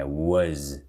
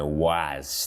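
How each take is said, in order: First: "was" as "wuz", short schwa and voiced Z; correct was. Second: "Was" with an open "ah" vowel, "wahz"; mispronounced was. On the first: Teacher giving the right model, "was" as "wuz". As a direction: say "was" with an "uh" vowel and Z ending. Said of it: "é was". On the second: Teacher showing another mistake, "Was" as "wahz". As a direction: say "Was" wrongly as a long "wahz". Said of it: "Was também não". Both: Shown as a demonstration.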